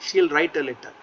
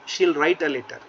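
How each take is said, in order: The two takes are said the same way.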